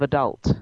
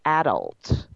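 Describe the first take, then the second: First: "adult" stressed on the second syllable, a-DULT; weak first vowel, then land on DULT in "adult"; "adult" as uh-DULT, American style. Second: "adult" with the first syllable stressed, AD-ult; "adult" as AD-ult, English style; non-American stress on ADULT. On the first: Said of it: "would say adult instead of". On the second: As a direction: hit the front of "adult", swallow the rest. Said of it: "they'll say". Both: Shown as a demonstration.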